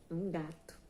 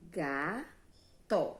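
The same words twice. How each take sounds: First: Said in the usual way. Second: "Gato" as two long beats, GA... to; slow classroom syllable demo of "Gato"; split into syllables. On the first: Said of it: "ela é composta por duas sílabas". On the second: Shown as a demonstration. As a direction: separate "Gato" into ga and to with a clear pause. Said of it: "duas sílabas".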